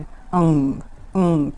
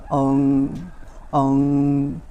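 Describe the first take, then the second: First: The nasal vowel is sharp and strong. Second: The nasal vowel is soft and gentle. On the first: "अनुस्वार वाला तीव्र होता है" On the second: "अनुनासिक वाला जो है वो धीमी होती है और ये मुंह से होते हुए नाक तक पहुंचती है"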